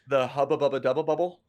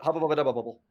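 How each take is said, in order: First: The phrase is said more slowly. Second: The phrase is said quickly. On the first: The speaker calls it wrong. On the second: The speaker calls it right.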